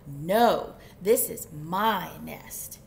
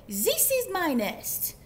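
First: Low, loud, slow retort; emphatic storybook squabble; indignant chicken. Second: Put-on high, loud, slow French-accented protest; storybook duck with French accent. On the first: Acted. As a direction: argue back firmly, punching each word. Chicken argues back. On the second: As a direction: claim it indignantly in a hammy French accent. Duck fights for the nest.

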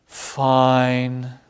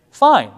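First: Lower, drawn-out "Fine." falling flat; sighing fine. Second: Sharp, high and loud "Fine." clipped short; harsh fine. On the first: Teacher shows a second way to answer how are you: low, drawn-out "Fine.". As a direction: let "Fine." sag, slow and low, weary. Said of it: "Or I might say". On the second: Teacher shows a harsh answer to how are you: loud, high "Fine.". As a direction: snap "Fine." out, high and loud, with a falling end. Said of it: "I might say". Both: Shown as a demonstration.

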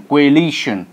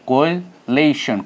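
First: Said in the usual way. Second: "coalition" stretched slowly, stress on the second syllable; slow demo pronunciation. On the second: Shown as a demonstration. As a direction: draw out "coalition" as a careful model for students. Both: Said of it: "This is coalition, ... how it is pronounced".

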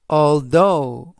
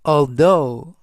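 First: Second model of "although" to copy; careful English "although"; model pronunciation. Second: "although" with stress on though, gh silent; louder teacher model of "although"; model pronunciation. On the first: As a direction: repeat "although", stress on though. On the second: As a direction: say "although" slowly and clearly. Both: Shown as a demonstration. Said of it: "although 라고 발음하시면 되겠고요".

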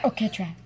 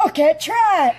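First: Said in the usual way. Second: Imitating his voice. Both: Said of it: "perfect imitation of this guy's voice".

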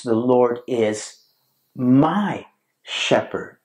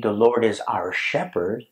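First: Pause, then MY drawn out, shepherd after it; stress on MY. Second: Said in the usual way. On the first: Shown as a demonstration. Preacher contrasts the text with "our shepherd", stress on MY. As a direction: slowly set MY apart from the rest. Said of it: "the text reads". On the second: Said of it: "The text does not read".

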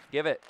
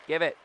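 No difference in how they are said.

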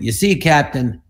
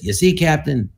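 First: Dry deadpan delivery of the line; quoting own line. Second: Said in the usual way. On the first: Retold or imitated. Comedian showing the boss how he said it, deadpan. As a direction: say it flat, not trying to be funny. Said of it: "I went". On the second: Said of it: "Like that".

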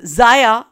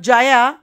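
First: Jaya said as "Zaya", with a Z; Zaya, the J turned into Z; mispronounced name. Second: Said in the usual way. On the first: Shown as a demonstration. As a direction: start Zaya on a buzzing Z in place of J. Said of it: "she says Zaya". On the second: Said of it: "Instead of Jaya, she says".

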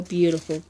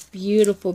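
First: Said in the usual way. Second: A louder, falling beautiful; emphatic praise. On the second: Real, not acted. Admiring the gift mixes: emphatic praise. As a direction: say "Beautiful" loudly, landing hard on the first syllable and falling.

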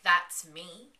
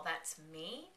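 First: Loud, startled "That's me?"; shocked question. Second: Quiet, hushed "That's me?" like a monster; creepy echo. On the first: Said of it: "Clara looks at him and was like". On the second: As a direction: echo "That's me?" softly, eerily. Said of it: "the thingy on the other side". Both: Retold or imitated.

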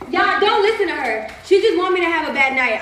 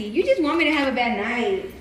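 First: Higher, louder public appeal; calling to crowd. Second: Said in the usual way. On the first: Real, not acted. Woman telling the crowd to ignore her partner, loud appeal. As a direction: call it out over the partner's words to everyone.

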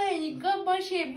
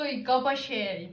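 First: Higher, slow Iy with a sneer on kaba; delighted mock-disgusted reread. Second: Reading a comment. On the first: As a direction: savour the insult in a prissy voice. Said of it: "Bunu çok sevdim ya". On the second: Retold or imitated. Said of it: "demiş".

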